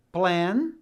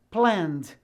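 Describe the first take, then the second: First: Said in the usual way. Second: "planned" in one syllable ending -nd; only the D added. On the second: Shown as a demonstration. Teacher repeating for students, "planned" with only D added. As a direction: close "planned" on the D without any E. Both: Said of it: "eu apenas pronuncio a letra D".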